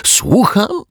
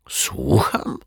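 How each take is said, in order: First: Leaps much higher and louder in disbelief; a squeaky, incredulous echo of his own question; astonished. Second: Said in the usual way. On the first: A narrator's reading. Detective stunned by the girl's news, astonished. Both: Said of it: "spojrzał na dziewczynkę ze zdumieniem".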